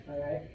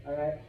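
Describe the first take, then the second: No difference in how they are said.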